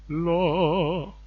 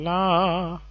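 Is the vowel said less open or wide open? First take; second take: less open; wide open. First: The vowel is said with the mouth less open. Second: The vowel is said with the mouth wide open. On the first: The speaker calls it right. "I think that that's better" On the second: The speaker calls it wrong. "open their mouth widely and just say la"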